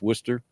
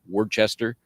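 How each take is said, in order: First: The word is not said as it is spelled. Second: The word is said just as it is spelled. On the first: This is how locals actually say it. The speaker calls it right. "pronounced Worcester" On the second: This is how a reader would guess it. The speaker calls it wrong. "You read it, it looks like Worcester"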